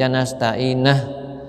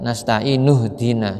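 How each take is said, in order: First: The vowel before the linking h is a. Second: The vowel before the linking h is u. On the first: The speaker calls it wrong. "nah itu berarti salah ya" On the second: The speaker calls it right. "Jadi kalau ingin menyambung ya"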